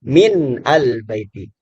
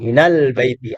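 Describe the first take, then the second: First: The n is kept apart from the next word. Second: The n runs straight into the next word. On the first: This is the original form. "Aslinya min al baiti" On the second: It is read this way to make reading easier. "kita dibantu minal baiti"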